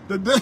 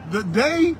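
First: Breathy laugh through the words The day. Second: Said in the usual way. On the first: Real, not acted. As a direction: giggle out "The day" mid-laugh.

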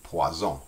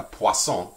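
First: "poison" said the French way, pwa-ZON; French Z sound. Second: "poisson" said pwa-SON, with a hissed S; French S sound. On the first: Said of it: "that's poison". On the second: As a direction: stress French "poisson", louder, with the S voiceless. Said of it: "So in French". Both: Shown as a demonstration.

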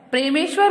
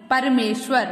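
First: "प्रेमेश्वर" begun as "pre-me", the r straight after p; mispronounced word. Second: "परमेश्वर" opening clearly on "par-me"; correct pronunciation. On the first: Teacher showing children the wrong word, mispronounced. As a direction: say "प्रेमेश्वर" with "pre" for the opening "par". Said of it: "नहीं". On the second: Teacher giving children the right word, correctly pronounced. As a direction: say "परमेश्वर" with a vowel between p and r. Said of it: "शुद्ध शब्द है". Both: Shown as a demonstration.

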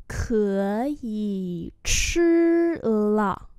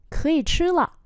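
First: Very slow, each syllable held; slow-motion pronunciation model; slow demonstration. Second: Said in the usual way. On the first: Shown as a demonstration. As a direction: draw every tone out for learners. Teacher repeats slowly for learners.

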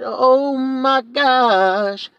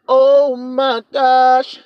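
First: High, very slow stretched "Oh my gosh"; drawn-out oh my gosh. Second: High, very slow stretched exclamation; drawn-out oh my gosh. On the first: Shown as a demonstration. Preacher repeating his own gasp, even slower and high. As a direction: drag out "Oh" long and high in mock awe. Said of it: "I said". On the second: Acted. Preacher marvelling to the congregation, slow high drawn-out gasp. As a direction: stretch it out in mock amazement.

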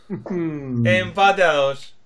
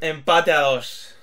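First: Very slow, lower, stretched call. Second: Slow, lower, drawn-out call. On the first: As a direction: hold the a very long. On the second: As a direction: stretch every word slowly. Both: Acted. Drawn-out tie announcement.

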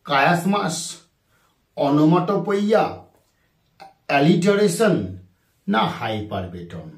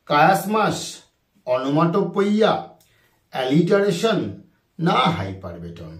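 The two takes are said the same way.

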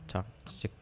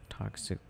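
Both takes have the same delivery.

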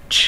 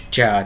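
First: "Ch" as pure air, no vowel; ch không có ơ. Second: "chờ" with a voiced, falling ơ. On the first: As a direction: cut "Ch" off as a voiceless puff. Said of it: "Chúng ta không có đọc âm ơ". ("Ch" chỉ bật hơi, không có ơ) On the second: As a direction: say "chờ" as a full Vietnamese syllable. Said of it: "chờ thì có âm ơ". ("chờ" đọc rõ âm ơ kiểu Việt) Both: Shown as a demonstration.

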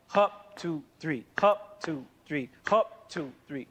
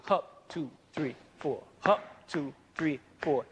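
First: Hup falls on the wrong beats; off-beat march count. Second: Steady chant with accents on hup and three; marching count. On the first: Teacher shows a syncopated march that breaks the pattern. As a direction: count the march with the accent shifted. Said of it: "you come out there and march". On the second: Teacher demonstrates a steady marching count. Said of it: "If everyone is marching". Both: Shown as a demonstration.

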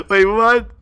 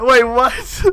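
First: Laughing through a disbelieving wait, what; can't hold the laugh in; giggling disbelief. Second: Startled wait, what with a rising question; genuinely thrown by it; sudden disbelief; surprised. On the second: Opponents suddenly leave the game. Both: Real, not acted.

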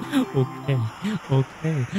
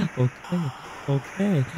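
Both takes have the same delivery.

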